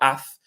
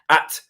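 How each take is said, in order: First: It ends with a th sound. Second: It ends with a plain t sound. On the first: The speaker calls it wrong. "so it's not Ath" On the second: The speaker calls it right. "There's no T H"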